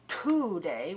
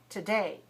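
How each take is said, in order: First: The first syllable is stressed with a puffed T. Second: The first syllable is weak with a soft T. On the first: The speaker calls it wrong. "we don't say today" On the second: The speaker calls it right. "we say today ... I'm not stressing the first syllable"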